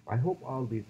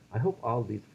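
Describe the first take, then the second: No difference in how they are said.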